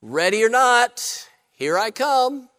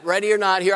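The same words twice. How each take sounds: First: Drawn-out calling, rising at the end; hide-and-seek call. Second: Said in the usual way. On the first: Retold or imitated. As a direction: call out slowly like the seeker. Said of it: "then he yells out".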